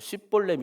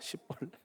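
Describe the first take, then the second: First: The word begins with an sh sound. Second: The word begins with a plain s sound. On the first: The speaker calls it right. "쉰 발음 못해 어, 쉽볼렛 이걸 못합니다" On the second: The speaker calls it wrong. "십볼렛이라고 합니다"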